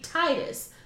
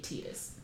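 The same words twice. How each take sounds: First: The first syllable sounds like 'tie', as in tide. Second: The first syllable sounds like 'tee'. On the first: It links the name to the tide. "what do you associate water? The tide. So I feel like, canonically, it should be Titus" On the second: It is the official pronunciation. "though I know it's supposed to be Titus"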